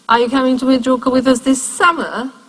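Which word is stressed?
summer. The strongest stress falls on summer. Summer is contrasted with winter. "or in winter, because we also go there in winter"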